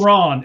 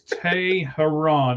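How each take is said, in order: First: The name is said with two syllables. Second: The name is said with three syllables. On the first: The speaker calls it wrong. "Everybody says Tehran. It's not Tehran" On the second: The speaker calls it right. "It's Teheran. It's T E H E R A N"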